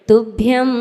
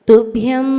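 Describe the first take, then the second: No difference in how they are said.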